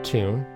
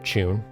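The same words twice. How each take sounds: First: It is said in an American accent. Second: It is said in a British accent.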